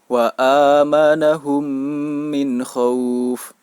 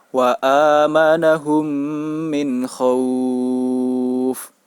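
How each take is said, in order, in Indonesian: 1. Vokal panjangnya ditahan dua harakat. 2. Vokal panjangnya ditahan enam harakat. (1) "dibaca dengan panjang dua harokat" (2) "panjang bacaan sebanyak enam harokat"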